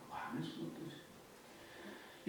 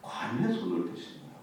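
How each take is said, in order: First: "관에 손을 대신 거예요" whispered slowly; hushed slow repeat. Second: Said in the usual way. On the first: Shown as a demonstration. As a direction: let "손을" sink in with a slow whisper. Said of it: "repeated softly".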